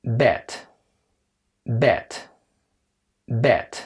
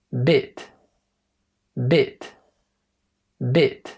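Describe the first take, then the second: First: "بات" as English bet, short eh; lower-pitched "بات" with eh rather than ih; open short E. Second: "بيت" as English bit, short ih; slight smile on a short "بيت", rhyming with sit; kasra-like vowel in "بيت", said bit; smiling short I. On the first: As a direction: say "بات" rhyming with set, mouth slightly open. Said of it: "إنما دي". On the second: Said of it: "مبتسم فيها شوية". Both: Shown as a demonstration.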